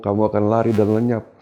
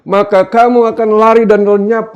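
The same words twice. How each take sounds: First: Said in the usual way. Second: High, loud declamation; ringing scripture proclamation; God's pronouncement. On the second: Acted. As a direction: thunder it out as God's verdict. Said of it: "kata Tuhan".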